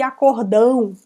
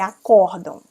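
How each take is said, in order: First: The stress falls on the final syllable. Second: The stress falls on the penultimate syllable. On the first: It sounds like a big agreement. The speaker calls it wrong. "Já vi pessoas dizerem assim" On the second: It names a collective court decision. The speaker calls it right. "se tem o acento é acordam"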